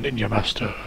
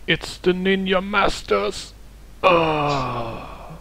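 First: Soft flat caption voice; deadpan title read. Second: Dying gasp, high and slow; overacted death scene. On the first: Pretend. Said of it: "it just flashes on the screen". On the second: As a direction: cry it out with a last breath, hammed up. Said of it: "dying dramatically".

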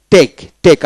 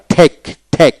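First: Said in the usual way. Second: "ঠেক" with a puff of air after the T; aspirated T. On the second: Shown as a demonstration. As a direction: start "ঠেক" on an aspirated th, still a stop. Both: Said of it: "আবার ঠেক".

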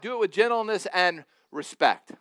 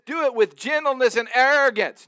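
First: Said in the usual way. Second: Louder, higher, hammed-up wrong version; mock misquote. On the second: Shown as a demonstration. Preacher misquoting the verse to his congregation, hammed-up and loud. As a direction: belt out the wrong word as a joke. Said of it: "No, he doesn't say that".

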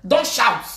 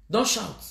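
First: Raised-voice command; sharp order. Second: Said in the usual way. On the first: Real, not acted. Ranter silencing someone, loud sharp order. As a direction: order them loudly to stop.

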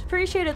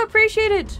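First: Said in the usual way. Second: Higher, eager thank-you; excited thanks shouted to a follower; bright thanks. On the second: Real, not acted. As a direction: call out your thanks to a new follower.

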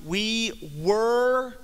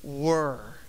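First: "were" said higher and louder, leaned on; stress on were. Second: "were" dropped low and drawn out on its own; stress on were. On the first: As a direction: hit "were" hard and lift it. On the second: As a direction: set "were" apart, low and slow, then pause. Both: Shown as a demonstration. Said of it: "Emphasis on the word".

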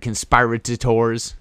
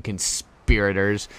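First: "conspirators" slowly mangled as kun-SPY-ruh-tuh-tors; garbled pronunciation. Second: "conspirators" with a short i, kun-SPEER-uh-ters; fumbled pronunciation. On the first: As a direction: stretch "conspirators" with SPY and an extra syllable. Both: Real, not acted. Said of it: "however you say the word".

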